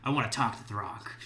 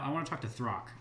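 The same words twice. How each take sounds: First: It is said menacingly, with a lowered voice. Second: It is said in a plain, ordinary way.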